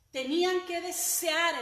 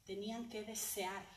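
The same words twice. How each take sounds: First: Higher, louder and slow, hammering the point; loud emphatic repeat. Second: Said in the usual way. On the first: Shown as a demonstration. Preacher repeating the point to the congregation, loud and fervent. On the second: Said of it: "Tenían que desear, hermanos".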